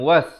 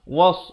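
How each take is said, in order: First: The s sound is plain and light. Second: The s sound is emphatic and heavy. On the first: The speaker calls it wrong. "seakan-akan waw baris atas bertemu sin" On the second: The speaker calls it right. "waw baris atas bertemu sad"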